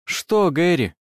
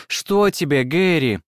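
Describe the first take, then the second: First: Said in the usual way. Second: A touch louder, insistent query; loud question. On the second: A narrator's reading. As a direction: call across to a sleeping husband. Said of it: "громко спросила я".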